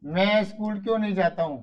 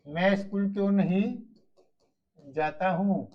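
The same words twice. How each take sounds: First: Said in the usual way. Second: Slow, spaced dictation pace. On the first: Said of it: "teacher first says the sentence". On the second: Shown as a demonstration. Teacher dictating to pupils, slowly and clearly. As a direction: spell it out slowly for the class to write. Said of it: "teacher repeats it slowly to dictate".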